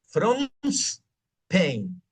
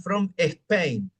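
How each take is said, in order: First: The s links to from, with no extra vowel. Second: An extra e vowel comes before Spain. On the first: The speaker calls it right. "sácale la S a Spain, préstasela a from" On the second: The speaker calls it wrong. "todos van a decir"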